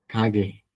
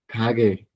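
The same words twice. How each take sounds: First: Kage said lower and softer, hard k then soft g; Korean word kage. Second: Kage, strike the k, soften the g; Korean word kage. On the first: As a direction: kage again, quiet and careful. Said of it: "que significa tienda". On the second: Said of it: "la palabra kage". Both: Shown as a demonstration.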